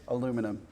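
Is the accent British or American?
American. It is said in an American accent.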